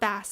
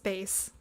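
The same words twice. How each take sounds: First: The vowel sounds like the one in mass. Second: The vowel sounds like the one in face. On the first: The speaker calls it wrong. "It's not bass" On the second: The speaker calls it right. "it's bass"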